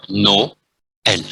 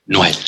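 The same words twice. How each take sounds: First: Noël in two separate syllables, no-el; split vowels. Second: Noël run together as one syllable, nwel; merged vowels. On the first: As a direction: break Noël slowly between O and E. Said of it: "có nghĩa là phải cắt". (Noël đọc tách thành hai âm nô-en) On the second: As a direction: glide O straight into E in Noël. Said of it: "O đọc với E thì sẽ trở thành". (Noël đọc liền một âm "noen") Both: Shown as a demonstration.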